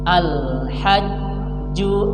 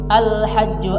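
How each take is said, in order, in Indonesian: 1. Konsonan ganda ditahan pelan dan lama. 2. Konsonan ganda diucapkan cepat tanpa ditahan. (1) "Harusnya kita tahan saja pelan-pelan" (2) "Apalagi membacanya seperti ini"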